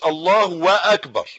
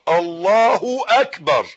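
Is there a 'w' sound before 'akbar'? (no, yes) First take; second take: yes; no. First: A 'w' sound is inserted before 'akbar'. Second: No 'w' sound comes before 'akbar'. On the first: The speaker calls it wrong. "عشان ما تقولش الله واكبر" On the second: The speaker calls it right. "تقول الله اكبر"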